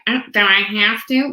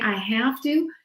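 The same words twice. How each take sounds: First: A light nasal whine, imitated; Fran Drescher whine. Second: Said in the usual way. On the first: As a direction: whine it a little through the nose. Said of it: "Fran Drescher, right? ... Right, right through the nose". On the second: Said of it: "when we start saying".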